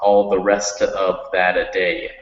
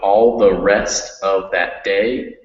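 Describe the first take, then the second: First: An extra vowel is added after "that". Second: The word "that" ends cleanly before "day". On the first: The speaker calls it wrong. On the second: The speaker calls it right. "make sure that all your words end when they end"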